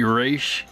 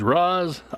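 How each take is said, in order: First: The name is pronounced as Ra's. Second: The name is pronounced as Roz. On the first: The animated series said the name this way. The speaker calls it right. "His name will always be Ra's to me" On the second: Many people say the name this way. The speaker calls it wrong. "a lot of people will argue with me that his name is Roz"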